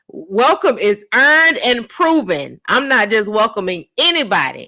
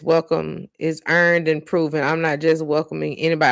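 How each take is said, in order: First: It is said loudly, with force. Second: It is said at a normal, quieter volume.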